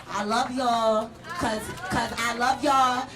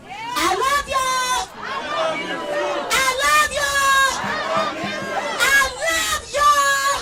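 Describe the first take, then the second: First: Tender. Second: High, slow shouted chant; crowd call shout. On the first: Closing, softly to crowd. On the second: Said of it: "you heard me?". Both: Real, not acted.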